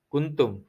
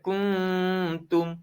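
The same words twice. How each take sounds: First: The nasal sound before the t is short. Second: The nasal sound before the t is held long. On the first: The speaker calls it wrong. "Tak boleh kita baca kuntum. Kuntum tu kuntum bunga" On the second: The speaker calls it right. "Dia kena baca kuntum"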